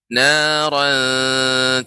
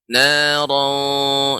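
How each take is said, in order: First: The word is said with a thin, light sound. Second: The word is said with a thick, heavy sound. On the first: The speaker calls it right. "ini tipis ya" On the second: The speaker calls it wrong. "tidak boleh naran naran, itu tebal ya"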